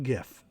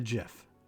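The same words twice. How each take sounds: First: The word begins with a hard G sound. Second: The word begins with a soft J sound. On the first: "GIF is a GIF with a G. Like gift" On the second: "GIF is a J"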